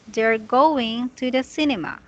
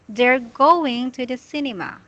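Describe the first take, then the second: Both takes have the same delivery.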